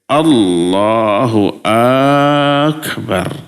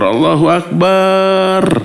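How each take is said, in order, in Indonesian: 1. Vokal pertama dari Akbar dibaca panjang. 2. Vokal setelah huruf b pada Akbar dibaca panjang. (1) "panjangnya itu pada akbarnya. Allahnya pendek" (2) "memasukkan huruf hamzah pada huruf pada lafaz akbar setelah huruf ba"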